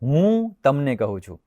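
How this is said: The first word carries the stress. I, and nobody else, am telling. "હું એટલે બીજું કોઈ નહીં"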